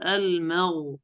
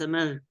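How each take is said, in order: First: المغ with a full, rounded back غ; heavy ghayn. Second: مغ with a light, thinned 'gh'; wrong thin ghayn. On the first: Shown as a demonstration. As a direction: demonstrate a heavy 'gh' closing المغ. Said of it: "طبعًا غين مفخمة". (غين مفخمة في المغ) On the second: Retold or imitated. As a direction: imitate the reciter's unrounded مغ. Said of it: "قرأ هكذا المغ". (تقليد غين مرققة في مغ)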